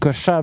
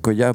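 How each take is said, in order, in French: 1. La consonne du milieu se prononce 'ch'. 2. La consonne du milieu se prononce 'y'. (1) "Ça se dit Cocha" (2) "mais je vous le dis exprès, Coya, pour que vous puissiez le retrouver"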